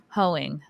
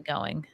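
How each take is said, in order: First: "hoeing" said with an h at the start; typo read aloud. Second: Said in the usual way. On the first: Real, not acted. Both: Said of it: "I think you mean going".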